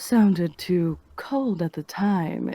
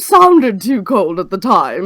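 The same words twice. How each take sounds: First: It is delivered in a low, sultry way. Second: It is delivered in a posh, upper-class way. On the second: "upper class"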